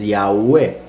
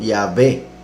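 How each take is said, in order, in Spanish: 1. La consonante del medio suena como una U. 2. La consonante del medio suena como una V. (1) "Es Yahweh, por eso se llama W" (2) "llamarlo Yahvé con V"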